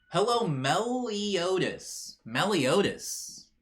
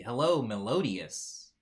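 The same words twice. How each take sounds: First: Meliodas stretched slowly as meh-lee-OH-das, higher; careful corrected name. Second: Melodious said slowly as me-LOH-dee-us; wrong name said slowly. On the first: Streamer carefully corrects the chat member's name, slow and precise. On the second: Streamer greets a chat member, slowly mispronouncing the name. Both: Shown as a demonstration. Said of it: "I was saying it wrong".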